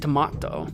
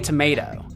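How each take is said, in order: First: It is said in a British accent. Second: It is said in an American accent. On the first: The speaker calls it wrong. "The British pronounce tomato different. They do. They say tomato" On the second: The speaker calls it right. "We know they can say tomato"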